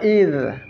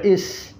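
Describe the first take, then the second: First: The word ends in a dh sound. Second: The word ends in an s sound. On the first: The speaker calls it right. "Ini huruf dha" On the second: The speaker calls it wrong. "kadang dibaca is"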